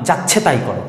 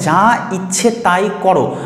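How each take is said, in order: First: The first two words are run together quickly. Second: Every word is said fully and separately. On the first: The speaker calls it wrong. "আমি তাড়াহুড়া করে বললাম" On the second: The speaker calls it right. "মানে যা ইচ্ছে তাই করো"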